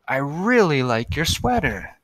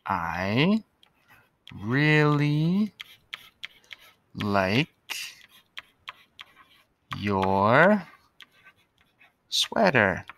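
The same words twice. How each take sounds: First: Said in the usual way. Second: Each word stretched and spaced; slow dictation. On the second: Shown as a demonstration. Teacher writing on the board, word by word. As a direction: dictate it slowly as you write.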